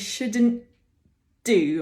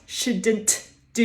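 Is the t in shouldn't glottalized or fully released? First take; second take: glottalized; released. First: The t is held and glottalized before the d. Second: The t is fully released before the d. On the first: The speaker calls it right. "we trap the tongue there, and we get a bit of glottal" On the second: The speaker calls it wrong. "we don't really want to do two alveolar sounds together, so we don't want shouldn't do"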